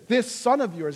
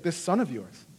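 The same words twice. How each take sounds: First: "son" leaned on, pointed and dismissive; "son" stressed with contempt. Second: Said in the usual way. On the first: Retold or imitated. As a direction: hit "son" to make it cold. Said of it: "But what does he say?". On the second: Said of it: "He's like".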